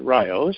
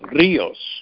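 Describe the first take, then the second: First: It is pronounced with anglicized English vowels. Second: It is pronounced with Spanish vowels. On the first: The speaker calls it wrong. "the British influence taught them to pronounce it Rios, which I've never really liked" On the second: The speaker calls it right. "which any Spanish person knows is Rios"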